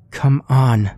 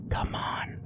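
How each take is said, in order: First: Louder, higher urgent plea; urging. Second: Breathy unvoiced whisper. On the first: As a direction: urge them to hurry. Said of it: "she urged". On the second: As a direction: whisper it urgently. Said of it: "she whispered". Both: A narrator's reading.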